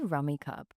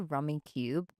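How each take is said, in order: First: The last syllable rhymes with 'tub'. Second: The last syllable rhymes with 'tube'. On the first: This is the speaker's own way of saying it. The speaker calls it right. "I say Rummy Cub" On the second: This is how other people say it. The speaker calls it wrong. "other people say Rummy Cube"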